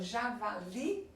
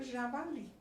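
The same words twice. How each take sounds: First: Javali broken into syllables, rising on the final LI; stress on LI. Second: Said in the usual way. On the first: Shown as a demonstration. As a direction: lift and stretch the LI of javali. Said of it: "li é a mais forte". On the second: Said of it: "quando acento tônico é a última sílaba".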